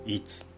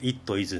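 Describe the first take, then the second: First: The two words are merged into one contracted form. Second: The two words are said fully and separately. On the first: "と言うじゃないですか" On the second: "教科書で習うのは"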